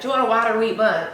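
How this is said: It is said in another regional accent.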